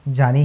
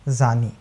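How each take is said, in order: First: The word begins with a j sound. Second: The word begins with a z sound. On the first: A dear one, beloved. "जानी ही बोलिएगा" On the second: A man in an illicit relationship. "ज के नीचे नुक्ता लगा दिया"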